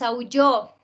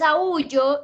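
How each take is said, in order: First: The stress falls on the last syllable. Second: The stress falls before the last syllable. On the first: He or she howled. "tiene el acento en la última sílaba" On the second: I howl.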